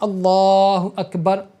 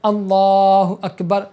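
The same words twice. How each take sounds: No difference in how they are said.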